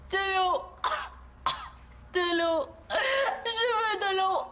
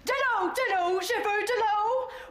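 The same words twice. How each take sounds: First: It sounds weak and dying. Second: It sounds firm and commanding, like a colonel.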